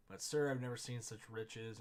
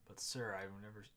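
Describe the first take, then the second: First: "but sir, I've never seen such riches" said louder in wonder; amazed outburst. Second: Said in the usual way. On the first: Shown as a demonstration.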